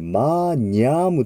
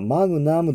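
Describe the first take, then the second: First: The gn is a palatal ny sound. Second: The g is hard, followed by n. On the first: The speaker calls it right. "マーニャームという発音になります" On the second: The speaker calls it wrong. "これはマグナムではなくて"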